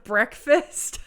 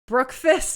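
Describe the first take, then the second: First: The first syllable sounds like 'breck'. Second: The first syllable sounds like 'brook'. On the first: The speaker calls it right. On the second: The speaker calls it wrong.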